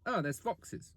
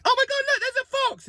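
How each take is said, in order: First: Much softer, bored shrug of a line; quiet blasé Londoner; unimpressed. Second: Much higher, squealing mock excitement; mock amazement. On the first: Retold or imitated. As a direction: toss it off like it's nothing. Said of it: "It's like". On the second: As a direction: gasp it like a tourist seeing a fox. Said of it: "It's not like".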